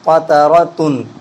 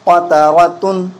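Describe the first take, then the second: First: The voice drops lower at the end. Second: The voice stays level to the end. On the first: The speaker calls it wrong. "ये आखिर में आके आवाज़ गिर गई।" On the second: The speaker calls it right. "इन हरकतों में भी मुसावात और बराबरी होनी चाहिए।"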